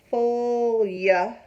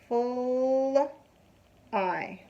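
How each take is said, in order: First: The ending sounds like yeah. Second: The ending sounds like eye. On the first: The speaker calls it wrong. "You're not pronouncing this word full yeah" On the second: The speaker calls it right. "So it's full I"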